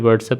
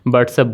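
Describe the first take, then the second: First: The word begins with a W sound. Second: The word begins with a B sound. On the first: "नहीं" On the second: "डब्लू को बी पढ़ते हैं"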